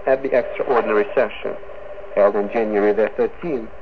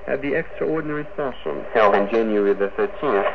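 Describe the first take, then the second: No difference in how they are said.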